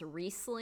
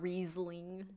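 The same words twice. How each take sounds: First: The middle consonant is a hissing S sound. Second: The middle consonant is a buzzing Z sound. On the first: "I've always heard it as Riesling" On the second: "You like make the S sound very Z-ish"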